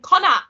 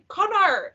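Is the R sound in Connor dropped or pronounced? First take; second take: dropped; pronounced. First: The R sound in the name is dropped. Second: The R sound in the name is pronounced. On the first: The speaker calls it wrong. "we didn't really pronounce the R's that much" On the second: The speaker calls it right. "no, it's Connor. Connor, you're saying it wrong"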